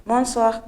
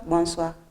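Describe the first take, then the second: First: Bonsoir said a little raised, falling at the end; opening greeting. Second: Said in the usual way. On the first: Shown as a demonstration. Teacher acting out the greeting half of the exchange, lightly raised. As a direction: offer the first bonsoir as a greeting. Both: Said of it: "the answer to bonsoir is bonsoir".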